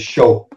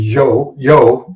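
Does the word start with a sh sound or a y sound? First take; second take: sh; y. First: The word starts with a sh sound. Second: The word starts with a y sound. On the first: This is how Argentinians say it. "they say sho. Everything is with an SH" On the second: This is the usual Spanish way of saying it. "instead of saying yo"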